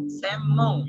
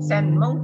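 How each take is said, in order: First: "Semmong" drawn out on a doubled m; n read as m. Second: "Senmong" with a distinct n before m; wrong reading with n. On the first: Teacher corrects for learners, long m in "Semmong". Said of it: "tapi Semmong ya". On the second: Teacher shows what not to say, n kept in "Senmong". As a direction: keep n and m apart in "Senmong". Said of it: "Jadi bukan Senmong". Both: Shown as a demonstration.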